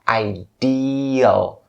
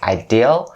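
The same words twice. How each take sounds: First: The second syllable has a long ee vowel. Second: The second syllable lacks a long ee vowel. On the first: The speaker calls it right. "the second syllable of this word contains the vowel of a long E sound" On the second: The speaker calls it wrong. "Most people are struggling pronouncing the second part of this word. So they'll say something like ideal"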